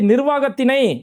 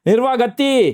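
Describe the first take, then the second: First: The word is said in full with its ending. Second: The word is clipped, losing its ending. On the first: This is the intended correct reading. The speaker calls it right. "அப்படின்னு படிக்கிறதுக்கு" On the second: Someone else read it this way. The speaker calls it wrong. "அப்படிங்கிறாரு"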